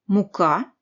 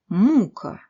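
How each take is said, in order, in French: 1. La terminaison est prononcée en entier, pas réduite. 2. La terminaison est réduite au maximum.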